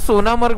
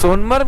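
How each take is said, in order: First: The name is said as three syllables. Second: The name is said as two syllables. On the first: The speaker calls it right. "Actually सोनामर्ग बोलतात त्याला. हा pronunciation आहे" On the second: The speaker calls it wrong. "सोनमर्ग नाही"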